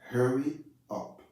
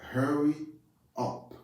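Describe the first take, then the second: The two takes are said the same way.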